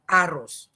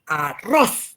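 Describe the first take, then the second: First: Put-on "arroz" with a Quechua accent, stressed on the first syllable, "A-rroz"; Quechua-accented Spanish. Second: "arroz" with the stress landing on the last syllable, "a-RROZ"; Spanish final stress. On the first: Teacher imitates a Quechua speaker learning Spanish: "arroz" as "A-rroz". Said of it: "te va a decir en lugar de arroz". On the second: Shown as a demonstration. Teacher shows the class the Spanish stress: "arroz" as "a-RROZ". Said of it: "Ma-, mayor punto".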